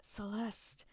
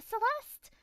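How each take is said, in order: First: Husky, half-whispered name; trial character voice. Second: Very high, loud squeal of a name; trial character voice. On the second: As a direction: call it out in a sudden high, loud pitch. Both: Shown as a demonstration. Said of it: "gonna try all different voices".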